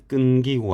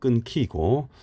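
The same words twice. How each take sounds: First: The second syllable starts with a plain k. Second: The second syllable starts with an aspirated k. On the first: The speaker calls it wrong. "끊기고 아니고" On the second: The speaker calls it right. "히읗하고 기역이 합쳐졌죠"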